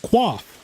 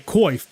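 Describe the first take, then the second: First: It is said with a 'kw' start, like 'quaff'. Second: It is said with an 'oy' vowel, like 'coif'. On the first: The speaker calls it right. "that is the actual pronunciation of it is quaff" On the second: The speaker calls it wrong. "people say coif"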